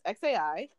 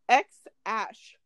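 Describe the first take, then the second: First: The name is said as three separate letters. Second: The name is said as two syllables, 'ex ash'. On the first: "it's pronounced X-A-I" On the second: "He said that it's pronounced X-ash"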